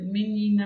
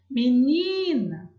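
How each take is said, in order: First: The word is said plainly, in a normal voice. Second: The word is called out, as if summoning someone. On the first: "se eu falar, não percebo" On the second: "Vou chamar"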